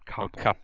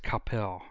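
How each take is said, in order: First: It sounds like the surname Koppel. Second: It does not sound like the surname Koppel. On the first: The speaker calls it wrong. "not Coppell. It's not like Ted Coppell" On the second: The speaker calls it right. "it's Coppell"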